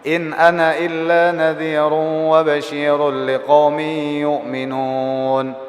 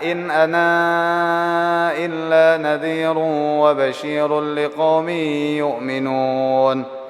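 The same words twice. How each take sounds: First: The final vowel of ana is short. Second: The final vowel of ana is lengthened. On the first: "Hasbal alif" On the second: "Boleh juga isbat macam macam siapa? Macam wa warash"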